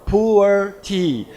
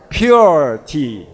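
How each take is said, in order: First: "pu'er tea" said as two syllables, pu-er, then tea; "pu'er" the Chinese way, not like English pure. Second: "Pure tea" with "pure" said as one syllable, pyoor, falling; "Pure" clean and English, like the word pure. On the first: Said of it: "Mandarin pronunciation". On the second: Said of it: "So say it like a pure tea". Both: Shown as a demonstration.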